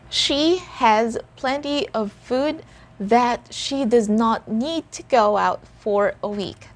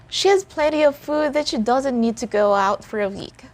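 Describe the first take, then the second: First: The sentence is spoken at a slower pace. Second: The sentence is spoken at a faster pace.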